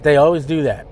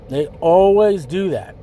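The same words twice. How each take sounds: First: Said in the usual way. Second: ALWAYS drawn out slowly; stress on ALWAYS. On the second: Real, not acted. Speaker warning listeners about challengers, stress on ALWAYS. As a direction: lean hard and long on "always". Repeats the point with emphasis.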